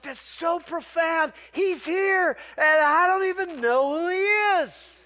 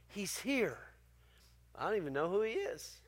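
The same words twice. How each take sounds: First: Much higher, slow, marvelling aloud; 惊叹地慢慢说出; amazed exclamation. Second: Hushed reflection. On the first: Retold or imitated. Pastor recalls his own thought. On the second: Real, not acted. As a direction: say it softly, letting it sink in. Quiet repeat of the key line.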